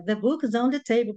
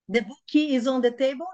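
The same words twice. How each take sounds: First: "The book is on the table" with the K of "book" joined straight onto "is"; linked correctly. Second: "The book is on the table?" with an extra "i" after book, rising like a question; wrong Brazilian way. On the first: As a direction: run "book is" together as "boo-kis". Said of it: "pega o K do book e já junta com o is". ("The book is on the table" ligando o K de "book" ao "is") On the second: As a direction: say "book" as "buki" and lift the end. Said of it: "Não, não, não, não". ("The book is on the table?" com "buki" e entonação de pergunta) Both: Shown as a demonstration.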